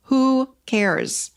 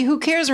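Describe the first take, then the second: First: Carefree "Who cares?" falling away at the end; light who cares. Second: "Who cares?" with CARES hit hard and high; a teenager's dismissive slam; shaming who cares. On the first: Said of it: "You gotta start saying to yourself". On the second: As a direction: adolescent jab "Who cares?" leaning on CARES. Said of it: "from the adolescent chair". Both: Shown as a demonstration.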